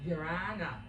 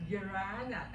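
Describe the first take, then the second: No difference in how they are said.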